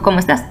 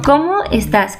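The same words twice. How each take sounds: First: The voice stays flat, not like a question. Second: The voice rises at the end like a question. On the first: The speaker calls it wrong. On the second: The speaker calls it right. "Sino, ¿cómo estás? Como una pregunta, hay que hacer la entonación"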